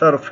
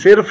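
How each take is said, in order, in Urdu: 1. پہلا واول چھوٹا a ہے۔ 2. پہلا واول چھوٹا i ہے۔ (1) "یہ صرف ہے" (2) "یہ صرف نہیں ہے"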